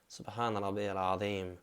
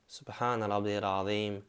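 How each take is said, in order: The two takes are said the same way.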